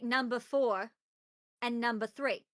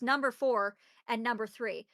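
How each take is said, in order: First: It is said in an imitated character accent. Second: It is said in the speaker's ordinary accent. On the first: "they say it with the accent" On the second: "it's number four and number three"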